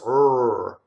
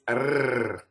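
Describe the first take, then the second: First: The R is an unrolled, American-style er sound. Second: The R is rolled with a tongue trill. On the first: The speaker calls it wrong. "R in English or American English" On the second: The speaker calls it right. "in Italian, it's r"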